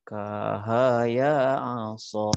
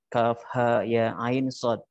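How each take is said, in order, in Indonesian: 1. Huruf-huruf digabung seperti satu kata. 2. Setiap nama huruf diucapkan terpisah dan utuh. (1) "Orang yang tidak bertalaki mungkin dia tahu aja" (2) "ada kalimat"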